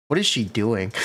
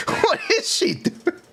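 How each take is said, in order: First: Said in the usual way. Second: Breathy laugh through words. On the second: Real, not acted. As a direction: laugh while asking. Laughing at character design.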